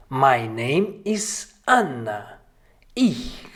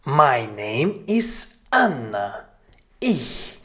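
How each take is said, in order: Both takes have the same delivery.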